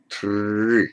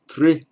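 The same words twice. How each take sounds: First: Tri drawn out with a sustained R; long tri. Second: Tri as one quick, higher syllable; short tri. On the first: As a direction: hold the sound of tri long. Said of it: "this is the long". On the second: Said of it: "This is the short". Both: Shown as a demonstration.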